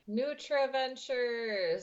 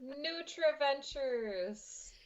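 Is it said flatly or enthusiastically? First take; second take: flatly; enthusiastically. First: It is said flatly, without much enthusiasm. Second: It is said with more enthusiasm and feeling.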